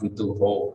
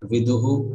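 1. शब्द o ध्वनि से खत्म होता है। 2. शब्द एक प्रतिध्वनित u ध्वनि से खत्म होता है। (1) "not vidu ho" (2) "So it should become viduhu"

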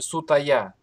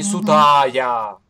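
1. Средний гласный произносится кратко. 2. Средний гласный произносится долго. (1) "мы видим сутая" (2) "А не сутая"

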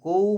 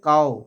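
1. স্বরধ্বনিটি একটি গোলাকার 'ou' ধ্বনি। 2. স্বরধ্বনিটি একটি খোলা 'au' ধ্বনির মতো। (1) "কৌ বলবো না, কৌ আমরা বাংলায় বলি" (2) "আর সংস্কৃততে কাও"

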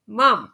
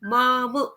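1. हा शब्द स्वर नसलेल्या व्यंजनाने संपतो. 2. अंतिम व्यंजनानंतर स्वर येतो. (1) "माम असा करायचा" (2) "माम असा उच्चार नाही करायचा"

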